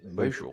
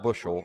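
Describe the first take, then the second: First: It is said in a Southern Ohio accent. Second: It is said in a standard accent.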